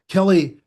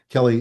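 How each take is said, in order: First: It is said with lively, varied intonation. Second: It is said flatly, with little intonation.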